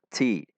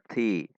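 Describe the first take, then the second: First: The t has a strong burst of air. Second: The t has a light burst of air. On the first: The speaker calls it wrong. "tidak dibaca dengan terlalu" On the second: The speaker calls it right. "Namun dibaca ti"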